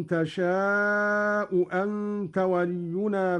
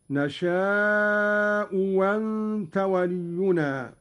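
First: Said in the usual way. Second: "وأنت" begun with a waw sound, wanta, after a long "نشاء"; slow recitation gliding into "wa" on "وأنت"; second hamza as waw. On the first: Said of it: "قرأ قالون بإبدال الهمزة الثانية". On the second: Shown as a demonstration. Teacher demonstrating Qalun's reading, "وأنت" with waw replacing the second hamza. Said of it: "بإبدال الهمزة الثانية".

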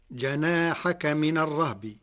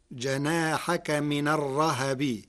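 First: Said in the usual way. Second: الرهب as ar-rahabi, with an a after the h; fatha on the ha. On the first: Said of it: "قرأ ورش كلمة الرهب". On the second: Shown as a demonstration. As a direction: open the h in الرهب into "ha". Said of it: "بفتح الهاء".

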